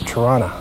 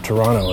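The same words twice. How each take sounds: First: Toronto is said with the local pronunciation. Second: Toronto is said in a casual personal way. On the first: This is how the name really goes. "and it's Toronto" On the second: This is the speaker's own habitual way. "Or Toronto, as I say"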